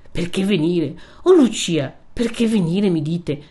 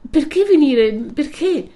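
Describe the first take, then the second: First: Pained, disbelieving reproach; reproachful echo. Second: High, loud anguished question; agitated cry of protest; distressed pleading. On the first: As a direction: throw the words back, hurt. Renzo echoes her question in reproach. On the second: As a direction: plead to know why, pitched far up. Lucia pleads with Renzo. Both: A narrator's reading.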